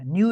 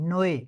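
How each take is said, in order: First: The vowel sounds like English 'new'. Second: The vowel sounds like 'noy'. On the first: The speaker calls it wrong. "न्यू नहीं नोए" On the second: The speaker calls it right. "नोए कहते हैं न्यू को"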